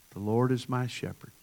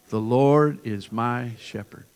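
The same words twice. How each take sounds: First: Said in the usual way. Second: "The Lord is my shepherd." said slowly and loud, LORD stressed; slow, louder unison recitation. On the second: Shown as a demonstration. Pastor leading congregation in unison: slow, loud recitation. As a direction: lead the room in saying it together. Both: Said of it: "I want us to say it all together".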